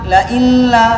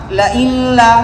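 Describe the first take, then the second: No difference in how they are said.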